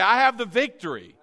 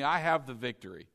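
First: It is said with strong, emphatic conviction. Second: It is said plainly, without special conviction.

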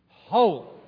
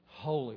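First: The word is said forcefully, with strong conviction. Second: The word is said in a plain, ordinary way. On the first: "Let's say it with conviction" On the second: "Let's say it again"

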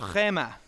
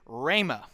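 First: The word is said without a West Texas accent. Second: The word is said with a West Texas accent.

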